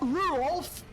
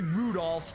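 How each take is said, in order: First: The D sound in the middle is dropped. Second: The D sound in the middle is pronounced. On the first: "You don't you you don't pronounce the the D right there" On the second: "it's not really Rudolph"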